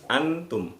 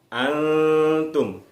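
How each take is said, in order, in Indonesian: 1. Bunyi n diucapkan dengan jelas dan utuh. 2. Bunyi n samar menyatu dengan t yang mengikutinya. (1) "Kalau dibaca antum itu bacanya jelas, nunnya terdengar jelas" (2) "Tetapi dibacanya samar"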